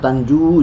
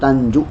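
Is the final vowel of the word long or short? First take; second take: long; short. First: The final vowel is held long. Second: The final vowel is cut short.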